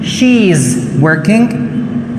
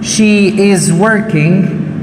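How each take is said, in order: First: Subject and verb merge into one syllable. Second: Subject and verb are said as separate words.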